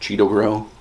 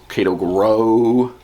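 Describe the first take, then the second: First: The first word begins with a Ch sound. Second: The first word begins with a hard K sound. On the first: "I don't think it's Cheeto" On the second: "I pronounce it Kato because there's an A first"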